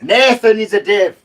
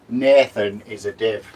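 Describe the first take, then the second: First: It is shouted. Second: It is said at normal volume.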